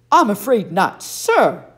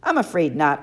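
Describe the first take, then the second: First: Put-on louder, haughty correction of the boy; mock him, stressing the missing sir; correcting. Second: Said in the usual way. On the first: Camp director correcting Percy's manners, loud and haughty. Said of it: "Sir, I repeated".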